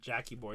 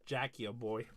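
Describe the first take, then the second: First: Jackie runs straight into boy with no sound between. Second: An extra 'a' sound comes between Jackie and boy. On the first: The speaker calls it wrong. "It's actually not Jackie Boy" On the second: The speaker calls it right. "it's Jackie a boy"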